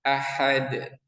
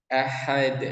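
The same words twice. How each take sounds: The two takes are said the same way.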